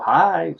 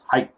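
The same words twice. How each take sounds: First: The vowel is drawn out and trails off. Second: The vowel is cut off short and abruptly. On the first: The speaker calls it wrong. "Don't go hi" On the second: The speaker calls it right. "but you kind of stop it"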